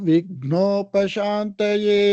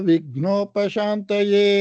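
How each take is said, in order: No difference in how they are said.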